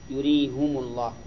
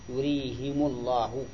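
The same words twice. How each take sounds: First: Both the h and the m take a u vowel. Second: The h takes i and the m takes u. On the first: "وضمهما" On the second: "وكسر الهاء وضم الميم"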